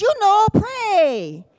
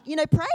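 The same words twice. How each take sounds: First: High, loud, drawn-out spelling-it-out tone; slow, insistent mock scolding; exasperated wife. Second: Said in the usual way. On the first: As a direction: imitate a wife prodding her clueless husband. Wife impatiently explains to husband.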